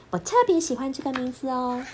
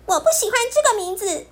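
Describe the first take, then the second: First: Gentle, pleased little voice; fond, happy cub. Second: High, fast, upset shout; loud protest. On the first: Bear cub happily tells Pipi about his favorite name. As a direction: say it like treasuring the name. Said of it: "熊豆豆一边炒菜一边说". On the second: Bear cub shouts at Pipi to stop the nickname. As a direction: push back hard, hurt and angry. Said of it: "他大声地对皮皮说". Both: Acted.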